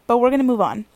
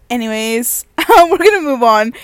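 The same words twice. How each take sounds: First: Said in the usual way. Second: "we're gonna move on" said through real laughter, higher and louder; laughing. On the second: Real, not acted. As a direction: laugh your way through moving on. Laughing at her own confusion.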